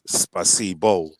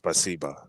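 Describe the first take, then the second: First: The final vowel sounds like 'o'. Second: The final vowel sounds like 'a'. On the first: This is how the word is written. "it's written as spasibo" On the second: This is how the word is actually said. "but it's pronounced as spasiba"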